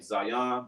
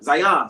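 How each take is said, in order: First: The word is said slowly and carefully. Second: The word is said quickly, sounding like Zai. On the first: The speaker calls it right. "sometimes you supposed to say Zion" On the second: The speaker calls it wrong. "we kind of say it like so fast"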